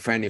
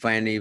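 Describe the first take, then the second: First: The first sound is a breathy, voiceless F. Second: The first sound is voiced, like a V. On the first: The speaker calls it right. "you can hear the difference" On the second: The speaker calls it wrong. "I try to pronounce them all with V's there"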